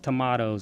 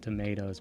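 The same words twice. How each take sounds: First: It is said with a British pronunciation. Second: It is said with an American pronunciation. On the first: "She says tomatoes" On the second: "instead of tomatoes"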